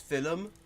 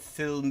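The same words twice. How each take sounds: First: A vowel splits it into two syllables. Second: It is said as one syllable. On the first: This is how it is often said in Ireland. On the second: This is the usual pronunciation.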